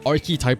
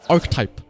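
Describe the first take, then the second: First: A vowel sound is heard between arc and type. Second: No vowel sound is heard between arc and type. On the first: The speaker calls it right. "I mainly say it archetype because to emphasize the fact that there is something there" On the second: The speaker calls it wrong. "they don't make any sound between the arc and the type"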